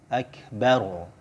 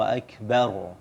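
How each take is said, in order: Both takes have the same delivery.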